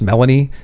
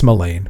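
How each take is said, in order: First: The name ends with an 'ee' sound. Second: The name ends with an 'ain' sound. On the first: The speaker calls it wrong. "which you'll hear in the uh, in the books pronounced Melanie" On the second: The speaker calls it right. "it's like Elaine, but with an M on the front"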